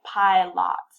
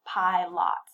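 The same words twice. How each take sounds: First: "pilot" with a full clear O in the second syllable; wrong full vowel. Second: "pilot" ending in a clear "lot", no schwa; again the unreduced "pilot", vowel not weakened; wrong full vowel. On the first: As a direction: say "pilot" as pi-LOT, unreduced last vowel. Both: Shown as a demonstration. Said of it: "student doesn't have a good concept".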